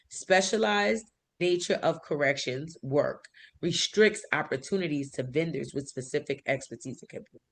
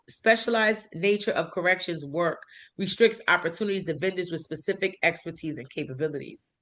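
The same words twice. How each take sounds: First: It is read slowly. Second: It is read at normal speed.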